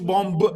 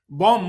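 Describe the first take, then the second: First: The word ends with an audible b sound. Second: The word ends without a final b sound. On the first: The speaker calls it wrong. "مش بومب" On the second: The speaker calls it right. "you don't pronounce the B at the end"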